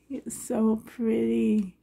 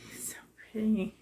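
First: Said in the usual way. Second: Whispered, almost to herself; awed whisper. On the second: Real, not acted. Unboxing a reborn doll, whispering in awe. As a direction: breathe it out in a hushed whisper. Gushing over doll, hushed.

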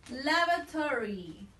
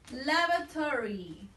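The two takes are said the same way.

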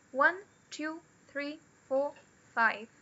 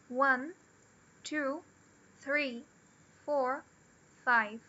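First: "One, two, three, four" up, "five" down; list tune falling at end. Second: "one", "two", "three", "four" rising, "five" falling; list tune. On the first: Teacher repeating count to show falling end. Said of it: "Tem esse down no final". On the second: Teacher counting to show list intonation. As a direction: lift each number, drop on "five". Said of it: "a entonação é pra baixo". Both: Shown as a demonstration.

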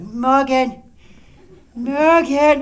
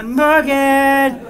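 First: Lightly sing-song call like for a cat. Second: Slightly louder sing-song cat call. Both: Retold or imitated. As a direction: coax him out like a cat at dinnertime. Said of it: "like I'm calling a cat for dinner".

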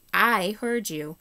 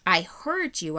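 First: I drawn out long, high and loud; stress on I. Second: HEARD punched louder within a quick insistence; stress on HEARD. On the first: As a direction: stretch and hit the word I. Repeats it, stressing I. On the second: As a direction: lean hard on the word HEARD. Horse insists he heard her. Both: Acted.

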